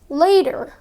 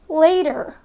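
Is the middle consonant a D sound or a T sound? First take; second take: D sound; D sound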